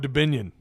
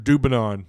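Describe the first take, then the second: First: The name ends with a 'nyun' sound. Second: The name ends with a plain 'non' sound. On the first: This is believed to be the correct form. "I think it's Dubinion" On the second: Someone else said it this way. "Otis Kirk called him Dubinon"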